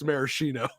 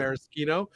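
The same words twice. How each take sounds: First: Maraschino with SH, mara-SHEE-no; sh pronunciation. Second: Maraschino with SK, mara-SKEE-no; sk pronunciation. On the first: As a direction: say maraschino with sh, the grocery-store way. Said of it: "the red cherries from the local". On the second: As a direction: say maraschino the Italian way, hard k. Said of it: "if it's a Luxardo product". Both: Shown as a demonstration.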